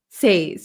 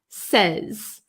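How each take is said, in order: First: The vowel is a long 'ay' sound. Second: The vowel is a short 'eh' sound. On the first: The speaker calls it wrong. "We don't say says" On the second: The speaker calls it right. "it's like an, a short eh, eh sound"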